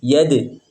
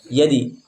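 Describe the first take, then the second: First: The bounce after d is a neutral vowel. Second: The bounce after d sounds like i. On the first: The speaker calls it right. "Tapi kepada e ya" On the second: The speaker calls it wrong. "condong kepada kasroh yadi"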